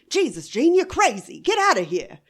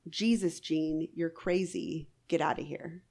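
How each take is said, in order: First: It is said in a dramatic 1930s movie voice. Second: It is read in a plain narrating voice.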